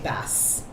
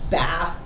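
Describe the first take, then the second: First: The word ends with an s sound. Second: The word ends with a th sound. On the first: The speaker calls it wrong. "they'll say bass" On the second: The speaker calls it right. "instead of saying bath"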